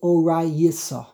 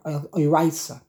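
First: The yud forms its own syllable, giving four syllables. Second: The yud closes a syllable, giving three syllables. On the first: The speaker calls it wrong. "don't say orai yisa. Don't make the yud into a syllable in and of itself" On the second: The speaker calls it right. "It's just a shva noch"

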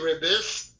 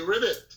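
First: The word ends with an s sound. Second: The word ends with a t sound. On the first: The speaker calls it wrong. "You don't say ribbis" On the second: The speaker calls it right. "you say ribbit"

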